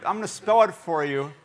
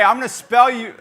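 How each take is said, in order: First: Said in the usual way. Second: Laughing. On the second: Real, not acted.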